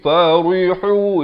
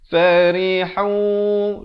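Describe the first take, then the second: First: The r sound is heavy and thick. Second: The r sound is light and thin. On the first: The speaker calls it wrong. "itu jadi tebal. Salah" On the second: The speaker calls it right. "Di sini ri-nya baca nipis"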